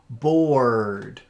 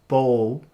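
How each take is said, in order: First: The R sound is strong with lots of air. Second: The R sound is weak or missing. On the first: The speaker calls it right. "we want to cup our tongue and let the air come up, push out a lot of air" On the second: The speaker calls it wrong. "instead of saying bowl"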